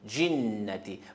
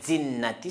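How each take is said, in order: First: The word begins with a 'dj' sound. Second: The word begins with a plain 'd' sound. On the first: The speaker calls it right. "on prononce J" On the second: The speaker calls it wrong. "c'est faux"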